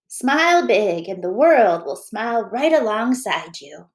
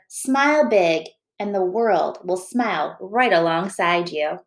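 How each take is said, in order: First: It is read in a put-on old woman's voice. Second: It is read in the reader's normal voice.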